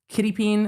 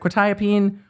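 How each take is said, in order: First: It begins with a 'kitty' sound. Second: It begins with a 'kwet' sound. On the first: The speaker calls it wrong. "the defense mispronounced it wrong once" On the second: The speaker calls it right. "instead of quetiapine"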